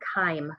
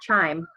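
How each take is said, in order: First: It sounds different from the musical chime. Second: It sounds like the musical chime. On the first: The speaker calls it right. "chyme is how you pronounce that" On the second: The speaker calls it wrong. "not chime like music"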